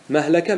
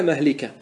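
First: مهلكة said "mahlaka", with an a; fatha form. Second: مهلكة said "mahlika", with an i; kasra form. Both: Shown as a demonstration. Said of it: "ما ورد بالوجهين".

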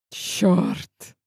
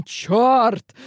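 First: A breathless whispered curse. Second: Sharp, higher, louder curse of shock; startled curse. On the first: Hero swears under his breath, dazed by her breath, whispered. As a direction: breathe the word out with no voice. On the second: Hero swears aloud as the girl slides down, startled and louder. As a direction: blurt it out, caught off guard. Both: A narrator's reading.

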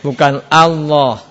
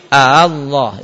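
First: "Allah" slow and loud, no hamzah break before it; wrong Allah. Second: "A Allah" slow, a clear glottal stop between "A" and "Allah"; correct two hamzah. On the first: Teacher shows pupils the wrong "Allah" without hamzah. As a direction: run "Allah" straight on, the wrong way. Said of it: "Jadi bukan A Allah". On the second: Teacher shows pupils the right "A Allah" with two hamzah. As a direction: split "A" from "Allah" with a catch. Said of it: "Ini dua hamzah". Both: Shown as a demonstration.

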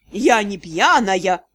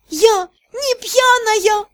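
First: Low, slow, slurred mimic; tongue-tied drunk imitation; slurred mockery. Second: Put-on slow, high, slurred drunk protest; tipsy. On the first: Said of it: "заплетающимся языком передразнил меня Джокер". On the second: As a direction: drag it out tipsy and giddy. Drunk heroine answers friends. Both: A narrator's reading.

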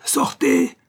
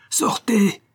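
First: Even higher, strained hoarse yell; harsher hoarse shout. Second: High, loud hoarse cry; hoarse shout. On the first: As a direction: scream him out the door. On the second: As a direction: throw him out with a raw shout. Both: A narrator's reading. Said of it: "cria-t-il d'une voix rauque".

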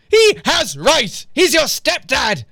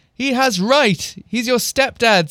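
First: HE HAS RIGHT drawn out high, each word punched; slow, high-pitched mock indignation on HE HAS RIGHT; hammed-up insistence. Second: Said in the usual way. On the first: A narrator's reading. Mum insisting he's your stepdad, exaggerated and slow on RIGHT. Exaggerated rereading of mistyped line.

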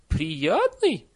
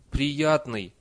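First: High, loud astonished question; incredulous echo. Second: Said in the usual way. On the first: A narrator's reading. Nanny repeats the villager's answer, incredulous. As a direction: throw the word back in disbelief.

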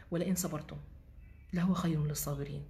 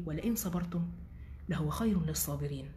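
First: Said in the usual way. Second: Softly whispered Quranic recitation. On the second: Shown as a demonstration. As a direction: breathe the verse in a whisper. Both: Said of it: "الآيات دي بحبها أوي".

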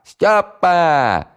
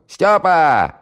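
First: High, long, loud drawn-out call; bellowing again. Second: High, loud call across the flat; bellowing. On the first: Housewife calls Styopa a second time, drawn-out and loud. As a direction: holler it longer, louder. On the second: Housewife bellows for Styopa to come to the phone. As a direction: yell the name at full throat. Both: Acted. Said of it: "заорала во всё горло".

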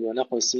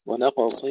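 First: ونقص said wrongly with a thin, light ص; wrong light sad. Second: ونقص with a full heavy ص and the ق unbounced; heavy sad. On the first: Teacher imitating students who thin the ص in ونقص. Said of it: "كما يقول كثير من الإخوة". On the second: Teacher drilling students on a heavy ص in ونقص. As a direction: recite ونقص, making the ص thick and emphatic. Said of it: "ننتبه إلى تفخيمها". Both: Shown as a demonstration.

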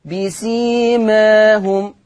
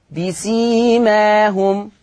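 First: بسيماهم with the ā tilted slightly towards e; بسيماهم, alif between open a and e; taqlil. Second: بسيماهم with a full open ā after the m; بسيماهم, long untilted ā in measured tajweed; open fatha. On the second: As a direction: slowly say بسيماهم, alif wide open. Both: Shown as a demonstration. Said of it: "يعني في فتح وتقليل".

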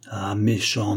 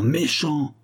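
First: Understated hurt reproach; tearful reproach. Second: "méchant!" jumps higher in hurt reproach; rising tearful "méchant!". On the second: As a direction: repeat "méchant!" higher, wounded. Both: Acted. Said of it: "dont les yeux rougissaient de larmes".

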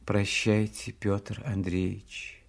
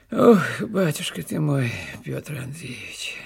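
First: Soft, low, slow goodbye; tearful heroine's hushed parting, understated; quiet farewell. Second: Put-on old servant's fond lament, slowing and dropping at the name; moved old servant. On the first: A narrator's reading. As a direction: let the name fade softly and slowly. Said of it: "сказала она тихим голосом". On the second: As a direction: sigh it out as a touched old retainer. Moved old servant answers his master.

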